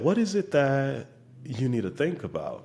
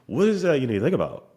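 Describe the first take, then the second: First: It has a short pause in the middle. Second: It runs straight through without a pause. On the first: The speaker calls it right. "There's a little pause in the middle there" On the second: The speaker calls it wrong. "It's very different than"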